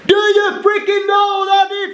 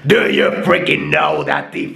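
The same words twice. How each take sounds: First: A loud, strong voice pushed from the chest. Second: A harsh, gritty metal-style voice. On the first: "let's try that loud voice again" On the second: "let's go for something like a metal voice"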